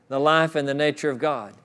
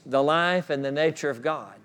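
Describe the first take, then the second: The two takes are said the same way.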